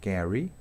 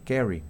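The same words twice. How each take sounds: First: It is said with a British vowel. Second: It is said with an American short E vowel. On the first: "en inglés británico digo carry" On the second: "en inglés americano se dice carry"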